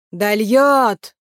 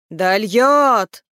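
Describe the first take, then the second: First: Loud, drawn-out call with a falling end; spoken call. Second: Loud, long swelling cry, falling away; louder call. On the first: He utters the word before repeating it louder, calling. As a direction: call the word out, stretching the last vowel. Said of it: "промолвил он и повторил громче". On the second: He repeats the word louder, calling out. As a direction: repeat it as a bigger drawn-out call. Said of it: "повторил громче". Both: A narrator's reading.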